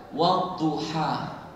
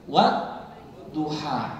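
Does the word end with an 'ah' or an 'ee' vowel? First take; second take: ah; ah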